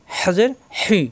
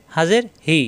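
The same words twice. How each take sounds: First: "হি" with a tight, strongly aspirated pharyngeal h; hissing Arabic h from mid-throat in "হি"; pressed throat ha. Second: Easy glottal h in "হি"; open, light ha. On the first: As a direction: squeeze the throat to start "হি". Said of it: "কণ্ঠনালীতে চাপ সৃষ্টি হবে". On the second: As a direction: breathe "হি" out freely. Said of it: "মুখ খোলা থাকবে". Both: Shown as a demonstration.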